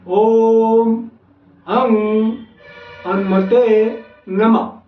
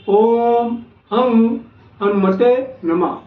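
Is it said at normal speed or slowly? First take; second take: slowly; normal speed. First: It is said slowly, word by word. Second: It is said at normal speed.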